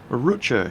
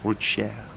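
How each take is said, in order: First: The name is pronounced the English way. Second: The name is pronounced the French way.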